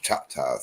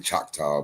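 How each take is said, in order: First: The name gets its native tribal pronunciation. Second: The name gets an anglicized English pronunciation. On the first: The speaker calls it right. "but it's" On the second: The speaker calls it wrong. "What the English say"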